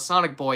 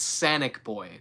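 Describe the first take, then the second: First: The first vowel is the usual 'ah' sound. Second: The first vowel is a flat 'a' sound. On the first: The speaker calls it wrong. "It's not Sonic Boy" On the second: The speaker calls it right. "like the meme Sanic"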